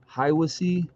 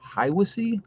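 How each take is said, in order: First: "Hiwassee" said as HIGH-wuh-see, plain statement; first try at the name. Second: "Hiwassee?" as HIGH-wuh-see, asked with a high questioning rise; unsure second try. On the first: Host reading a viewer's town aloud, plainly. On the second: Host doubting his own pronunciation of a viewer's town, questioning rise. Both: Shown as a demonstration. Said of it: "Is that how you say it?".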